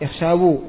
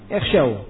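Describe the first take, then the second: First: The word ends with an added vowel after w. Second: The word ends on the w sound, no vowel. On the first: The speaker calls it wrong. "Bukan apa? Ikhshawu, bukan" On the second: The speaker calls it right. "wau dan ya-nya disukun"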